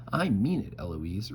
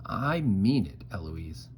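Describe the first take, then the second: First: Mimicking right back. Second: Tutor giving a warning; tutore Philip. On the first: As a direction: throw the warning straight back, pitched up. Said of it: "right back at him". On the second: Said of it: "And he says". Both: A narrator's reading.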